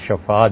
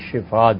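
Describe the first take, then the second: First: The first vowel is an 'a' sound. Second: The first vowel is an 'i' sound. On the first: The edge of a pit is wished on the person. The speaker calls it wrong. "لوگ اسے غلط پڑھتے ہیں" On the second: Good health is wished for the sick person. The speaker calls it right. "شین کی زیر کے ساتھ"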